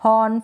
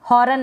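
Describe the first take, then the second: First: हॉर्न said as hon, r dropped; हॉर्न the correct way, no r; silent r. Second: हॉर्न with the r sounded, hor-un; हॉर्न said the wrong way, r rolled. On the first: Teacher models the right reading for students, r silent. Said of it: "इसको हॉर्न पढ़े". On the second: Teacher warns students off this reading, r sounded. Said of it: "हॉर्न ना पढ़े". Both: Shown as a demonstration.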